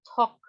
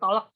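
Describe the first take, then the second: First: The word is said with no L sound. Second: The word is said with an audible L sound. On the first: The speaker calls it right. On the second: The speaker calls it wrong. "bukan tolek"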